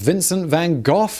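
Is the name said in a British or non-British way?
British. The name is said the British way. The speaker calls it right. "In the U K, we pronounce this man as"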